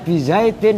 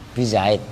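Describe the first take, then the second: First: The word ends with a short vowel and n. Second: The word ends on a bare consonant. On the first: This is the full form inside a sentence. "yang asalnya bizaidin" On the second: This is the form used when pausing. "disukun. Bisa bizaid"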